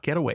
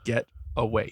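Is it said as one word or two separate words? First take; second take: one word; two words. First: It is run together as one word. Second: It is said as two separate words. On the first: It is the noun getaway. The speaker calls it wrong. "It's not one word" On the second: It is the title as a verb phrase. The speaker calls it right. "It's two words"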